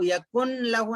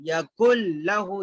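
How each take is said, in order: First: यकुन लहू quickly, with n before l; unmerged wrong reading. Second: यकुल लहू, doubled l with no n; correct merged reading. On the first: Teacher showing what not to read, unmerged n. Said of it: "नहीं पढ़ेंगे". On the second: Teacher showing the correct reading, merged lam. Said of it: "यकुन लहू नहीं पढ़ेंगे". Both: Shown as a demonstration.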